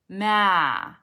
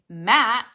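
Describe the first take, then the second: First: The word trails off with air draining out. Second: The word is cut off sharply at the end. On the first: The speaker calls it wrong. "let the air drain out of it like a deflating balloon" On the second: The speaker calls it right. "take the air away from them immediately"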